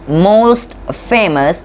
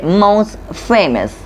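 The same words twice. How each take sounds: First: The T before famous is pronounced. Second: The T before famous is dropped. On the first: The speaker calls it wrong. "We don't say" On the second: The speaker calls it right. "a T or a D between two consonant sounds, it's often get removed"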